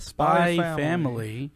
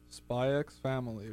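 First: The letter X is left out entirely. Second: The letter X is spoken aloud between the words. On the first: The speaker calls it right. "you don't pronounce the X apparently" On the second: The speaker calls it wrong. "I'm too used to it, so I keep saying it"

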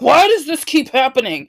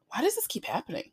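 First: It sounds frustrated, like a rhetorical complaint. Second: It sounds curious, like a sincere question. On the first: No answer is expected; it vents annoyance. The speaker calls it wrong. "the frustrated reaction of almost like a rhetorical question" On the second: An answer is really being sought. The speaker calls it right. "you are genuinely asking and you are genuinely seeking the answer"

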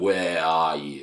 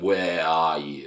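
First: The pitch stays low and flat throughout. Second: The pitch stays low and flat throughout.

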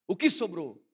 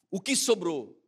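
Both takes have the same delivery.

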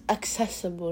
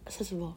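First: The c is sounded as k before s. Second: The k sound before s is dropped. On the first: The speaker calls it right. "It's accessible" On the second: The speaker calls it wrong. "not accessible"

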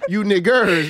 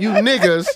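First: The word ends with a hard R sound. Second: The word ends in a soft vowel without R. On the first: "With the hard ER"

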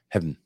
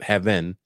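First: The word is said with one syllable. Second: The word is said with two syllables. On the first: The speaker calls it right. "It's just an abbreviation" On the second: The speaker calls it wrong. "It's not heaven"

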